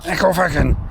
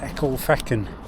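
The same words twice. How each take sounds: First: It is said in an angry Scottish voice. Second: It is said in a plain, calm voice.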